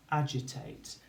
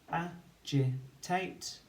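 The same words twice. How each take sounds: First: Said in the usual way. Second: "agitate" stretched very slowly with a rising end; slow teacher's blend, ending on a rise. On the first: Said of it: "say it as we spell it". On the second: Shown as a demonstration. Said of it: "we can say it as we spell it to build the word".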